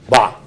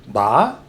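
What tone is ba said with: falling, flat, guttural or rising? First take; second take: guttural; rising. First: The sound is guttural and swallowed. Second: The pitch goes upward. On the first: It means any or strengthen. "guttural, you swallow it" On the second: It means embrace. "upward tone"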